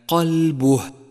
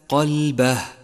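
First: The b is followed by a u vowel. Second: The b is followed by an a vowel. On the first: The speaker calls it right. "حرف الباء مضموم وليس مفتوحا، فهي قلبه" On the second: The speaker calls it wrong. "وليس قلبه"

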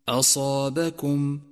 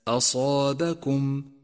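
The two takes are said the same way.

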